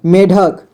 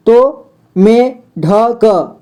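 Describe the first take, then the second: First: Said in the usual way. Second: Drawn-out, split syllables: "में ढक"; slow syllable split. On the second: Shown as a demonstration. A teacher sounding out "में ढक" slowly for beginners. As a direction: slowly pull "में ढक" apart into two syllables.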